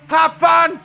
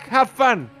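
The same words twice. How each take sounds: First: It is shouted with much stronger anger. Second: It is shouted with some anger.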